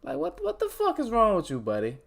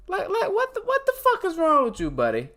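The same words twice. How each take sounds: First: Exasperated at himself. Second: Much higher, louder incredulous outburst; self-directed mock rage, cracking high; exasperated yell at himself. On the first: Scolding himself after closing tabs. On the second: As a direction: blow up at your own mistake. Repeats scolding louder, higher. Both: Real, not acted.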